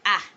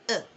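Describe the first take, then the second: First: The vowel is a full, open vowel. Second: The vowel is reduced to a schwa. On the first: "Most times we do say ah" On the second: "the article A can be softened, ... you introduce the schwa sound"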